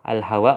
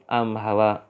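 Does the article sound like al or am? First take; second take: al; am. First: The article is said with an l sound. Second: The article is said with an m sound.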